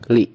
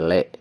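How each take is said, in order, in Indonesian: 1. Vokalnya adalah bunyi i yang jelas. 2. Vokalnya adalah bunyi e.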